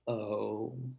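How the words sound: It is quiet and the pitch falls. It accepts what was said. "the toddler has a kind of quiet falling intonation"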